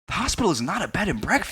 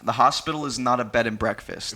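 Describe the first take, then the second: First: It is read with forceful, exclamatory energy. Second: It is read in a flat, plain tone.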